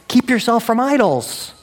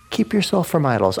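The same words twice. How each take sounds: First: "Keep yourself from idols" pitched high as a punchline; emphatic summary. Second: Said in the usual way. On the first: Real, not acted. Preacher drives home the summary.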